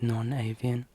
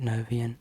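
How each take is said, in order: First: The word is said with a clearly separate 'non'. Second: The word is run together without a separate 'non'. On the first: The speaker calls it right. "or it's non-avian" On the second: The speaker calls it wrong. "I realise I've pronounced it Novian"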